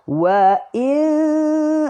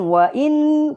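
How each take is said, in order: First: The n is replaced by a nasal hum. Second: The n is pronounced fully, without nasal hum. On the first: The speaker calls it right. "tu bunyi dengung" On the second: The speaker calls it wrong. "jangan wa in. Kalau in tak dengung"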